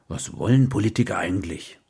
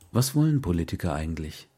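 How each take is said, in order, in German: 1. Sie wird wütend gesagt, eher ausgerufen als gefragt. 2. Sie wird als ernst gemeinte, neugierige Frage gestellt. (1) "Mit mehr Ausrufe als Fragezeichen" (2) "ich frage das nicht mit zornigem Unterton"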